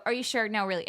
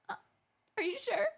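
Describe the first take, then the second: First: Said in the usual way. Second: Fake polite offer. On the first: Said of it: "It's not the fake reach". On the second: Shown as a demonstration. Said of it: "the fake reach".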